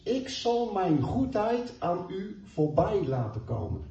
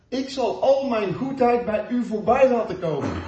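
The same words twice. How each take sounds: First: Said in the usual way. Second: Louder and higher, with a laugh in it; emphatic repeat. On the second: Acted. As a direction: lift it up with joy the second time. Same promise repeated with emphasis. (nadrukkelijk herhaald, luider en hoger met een lach)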